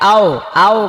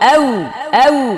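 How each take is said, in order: First: The vowel is said with an open mouth. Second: The vowel is said with rounded lips. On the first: The speaker calls it wrong. "এটাকে আও আও বলা যাবে না" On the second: The speaker calls it right. "ঠোঁট একদম ঠোঁটের আগা থেকে উচ্চারণ হবে"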